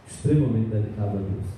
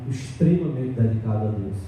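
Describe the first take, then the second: Both takes have the same delivery.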